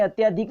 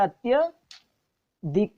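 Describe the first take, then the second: First: अत्याधिक with long "tyaa" before "dhik". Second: अत्यधिक slowly split, "atya... dhik"; short "tya", pause, then dhik in अत्यधिक. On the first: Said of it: "अत्याधिक नहीं होता". (अत्याधिक में "त्या" लंबा) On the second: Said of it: "ये होता है अत्यधिक". (अत्यधिक धीरे, छोटा "त्य", फिर "धिक") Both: Shown as a demonstration.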